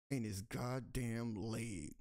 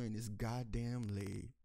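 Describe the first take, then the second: First: Even slower, every word hit; slower disgusted repeat. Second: Slowed, stress on goddamn; slow emphasis. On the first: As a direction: spit out "In his goddamn leg" one word at a time. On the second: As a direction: drag out "goddamn" with disgust. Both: Acted. Angry repeat of officer's leg.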